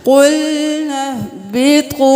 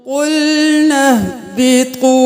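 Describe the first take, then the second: No difference in how they are said.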